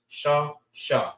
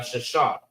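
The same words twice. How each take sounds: First: Sha... Sha, split by a clear pause; Sha, Sha as two separate beats; two syllables. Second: Said in the usual way. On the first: Shown as a demonstration. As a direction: sound out each Sha on its own. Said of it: "Two syllables". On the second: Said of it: "which is two syllables".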